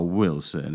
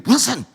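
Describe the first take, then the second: First: The name is said in a soft voice. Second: The name is said in an angry voice. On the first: "When you want to talk soft" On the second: "When you're angry"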